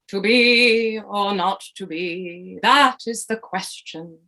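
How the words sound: It is said in a grand theatrical voice.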